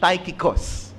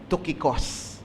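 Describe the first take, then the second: First: The first vowel sounds like 'eye'. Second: The first vowel sounds like 'oo'. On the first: This is how English speakers say the name. "Siguro pag English" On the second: This is the original Greek way to say the name. "ang Greek pronunciation po talaga niyan ay"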